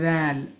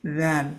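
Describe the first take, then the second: Both takes have the same delivery.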